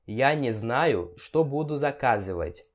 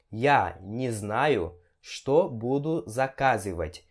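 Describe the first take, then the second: First: Said in the usual way. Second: Slow, phrase by phrase with pauses; slow teaching repeat. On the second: Shown as a demonstration. Teacher repeats a Russian example for students, slow and separated. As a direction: spell it out slowly for learners.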